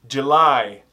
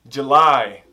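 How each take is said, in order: Both takes have the same delivery.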